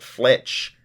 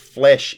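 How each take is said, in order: First: The word ends with a ch sound. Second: The word ends with an sh sound. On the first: This is how the speaker used to say it. The speaker calls it wrong. "I had been pronouncing it Fletch" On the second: This is the way the speaker will use. The speaker calls it right. "Flesh is more or less the correct pronunciation"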